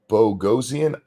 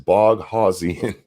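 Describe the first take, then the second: First: The middle is a short plain 'o' sound. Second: The middle sounds like the word 'house'. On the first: This is how the owner pronounces his name. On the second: This is how the name is spelled.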